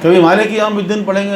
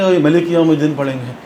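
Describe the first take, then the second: First: مالک said with a long first vowel, maa-lik; مالک pronounced maa-lik, long a; long a in Malik. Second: ملک said with a short first vowel, ma-lik; ملک pronounced ma-lik, short a; short a in Malik. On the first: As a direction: stretch the aa in مالک. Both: Shown as a demonstration.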